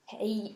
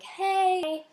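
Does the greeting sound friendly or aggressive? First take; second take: aggressive; friendly. First: The greeting sounds mean and aggressive. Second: The greeting sounds warm and friendly.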